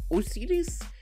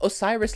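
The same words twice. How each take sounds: First: The name is said with Portuguese pronunciation. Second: The name is said with English pronunciation. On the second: "like Osiris, like the Egyptian god"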